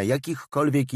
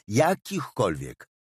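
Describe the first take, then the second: First: Said in the usual way. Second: JAKICHKOLWIEK slowed right down for emphasis; emphatic repetition. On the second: Acted. Refusing any information to the caller, emphatic on "jakichkolwiek". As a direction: stretch "jakichkolwiek" slowly, falling at the end.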